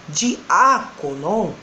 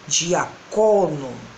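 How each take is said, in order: First: The stress is on the antepenultimate syllable. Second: The stress is on the penultimate syllable. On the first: "estava na antepenúltima" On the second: "vai passar pelo menos para a penúltima"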